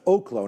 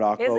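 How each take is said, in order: First: The first syllable sounds like 'oh'. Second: The first syllable does not sound like 'oh'. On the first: The speaker calls it right. "it's Oklo" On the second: The speaker calls it wrong. "not Oklo"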